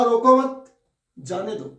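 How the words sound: The pause comes right after 'mat'. Do not stop him, let him go. "दूसरे में कहा ... इसी चिन्ह को मैंने आगे लगा दिया"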